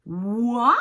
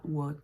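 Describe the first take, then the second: First: «what» loud, with a sweeping rise; caricatured English intonation. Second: Said in the usual way. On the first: Shown as a demonstration. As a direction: swing «what» upward emphatically. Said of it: "je caricature un peu". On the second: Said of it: "C'est pas what".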